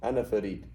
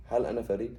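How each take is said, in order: First: Said in the usual way. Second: "Hal" stressed, "Farid" rising at the end; question intonation. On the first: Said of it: "you just get the same sentence". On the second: Shown as a demonstration. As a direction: ask it, lifting the end of "Farid". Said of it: "So the intonation changes".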